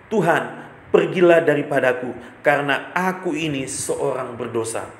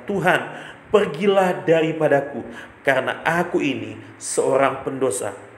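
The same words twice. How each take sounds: No difference in how they are said.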